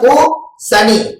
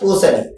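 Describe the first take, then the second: First: There is a pause between the two parts. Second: The two parts are joined without a pause. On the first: It splits into flower and Saturn, the affliction. "எப்படி நிறுத்தி நிறுத்தி சொல்றத" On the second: It is the ordinary word for pumpkin. "சேர்த்து சொல்றதுனால"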